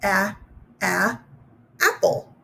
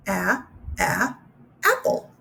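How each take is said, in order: First: A, a, then apple with a rising lift; sounding out apple. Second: A, a, apple said again; sounding out apple. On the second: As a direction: sound out the a once more before apple. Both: Shown as a demonstration. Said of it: "So here we go".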